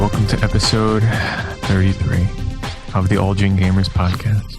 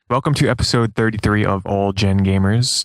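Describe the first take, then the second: First: It is said softly, without enthusiasm. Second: It is said loudly, with enthusiasm.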